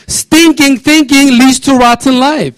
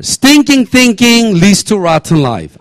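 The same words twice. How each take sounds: First: Higher, louder, slow, punching "Stinking"; emphatic repeat. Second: Slow, deliberate first reading, stress on "Stinking"; slow read-through. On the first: Pastor driving his saying home to the church, slow and forceful. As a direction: preach it out with force, leaning on "Stinking". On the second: Pastor reading his own saying to the congregation, slow and deliberate. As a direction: lay out "Stinking thinking" slowly, word by word. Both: Shown as a demonstration. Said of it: "Let's read this passage out together".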